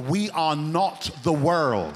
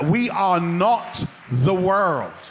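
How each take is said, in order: First: It is said at normal volume. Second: It is said loudly.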